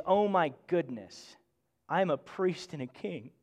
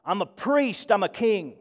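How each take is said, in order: First: Hushed gratitude, almost unbelieving; humbled awe. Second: Puffed-up, pleased with themselves; mock a self-important boast; a touch of smug pride in a priestly title; proud excitement. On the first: Shown as a demonstration. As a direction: say it softly, overwhelmed at the gift. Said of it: "what we're supposed to connect to is". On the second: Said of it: "people get excited about who they are".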